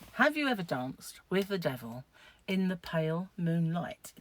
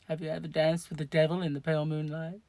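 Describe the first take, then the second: First: It is said in a put-on, acted voice. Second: It is said in her plain, normal voice.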